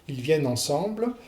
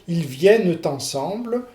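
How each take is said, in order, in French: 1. Ni le e final ni le t ne sont entendus. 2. Le e final et le t sont tous les deux entendus. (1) "vous faites une, une fausse élision" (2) "vous prononcez le, le E caduc et le T de, de liaison"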